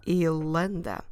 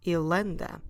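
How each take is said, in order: First: The vowel is dropped and words run together. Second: The vowel is dropped and words run together.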